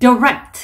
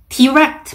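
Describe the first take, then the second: First: The first syllable is reduced to a quick d. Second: The first syllable has a full clear vowel. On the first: The speaker calls it right. "d, d, direct 이렇게 발음을 해주시면 좋습니다" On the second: The speaker calls it wrong. "direct 말고"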